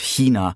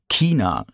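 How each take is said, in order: First: It is said with a standard German pronunciation. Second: It is said with a southern German pronunciation.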